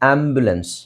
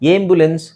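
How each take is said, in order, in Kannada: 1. ಮೊದಲ ಸ್ವರ 'ah' ರೀತಿ ಧ್ವನಿಸುತ್ತದೆ. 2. ಮೊದಲ ಸ್ವರ 'ay' ರೀತಿ ಧ್ವನಿಸುತ್ತದೆ.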